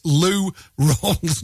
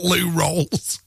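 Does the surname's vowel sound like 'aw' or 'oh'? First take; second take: aw; oh. First: The surname has an 'aw' vowel, like 'Rawls'. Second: The surname has an 'oh' vowel, like 'Rolls'. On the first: The speaker calls it right. "as in R-A-W-L-S" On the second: The speaker calls it wrong.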